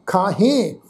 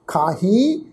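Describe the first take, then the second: First: ਖਾਹੇ with a falling, nasal final e; demonstrated falling tone. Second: ਖਾਹੀ with a rising, nasal final ee; demonstrated rising tone. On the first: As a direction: let the tune drop at the end of ਖਾਹੇ. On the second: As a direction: lift the tune at the end of ਖਾਹੀ. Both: Shown as a demonstration. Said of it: "ਤੁਸੀਂ tone ਸਮਝੋ".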